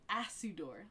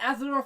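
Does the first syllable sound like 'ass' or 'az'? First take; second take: ass; az. First: The first syllable sounds like the word ass. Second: The first syllable is said with a z sound. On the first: The speaker calls it wrong. "like an like an ass" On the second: The speaker calls it right. "Mask couldn't say Azador"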